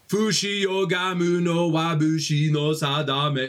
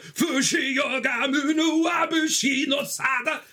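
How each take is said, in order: First: It is said plainly, without dramatic flair. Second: It is said with theatrical, dramatic flair. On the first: An ordinary person saying the line. The speaker calls it wrong. "most people be like" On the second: Performing the line like an anime character. The speaker calls it right. "I feel like a fucking anime character"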